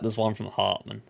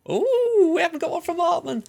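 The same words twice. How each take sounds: First: Said in the usual way. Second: Much higher and louder, thrilled squeal; excited squeal. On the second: Real, not acted. A fan spotting Hartman's name, squealing with real excitement. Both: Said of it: "I was that excited about Hartman".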